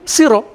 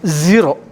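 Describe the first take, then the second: First: The word begins with an s sound. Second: The word begins with a z sound. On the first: "The s changed into z" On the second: "The s changed into z"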